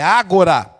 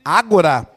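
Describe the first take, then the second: First: The stress is on the first syllable. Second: The stress is on the first syllable.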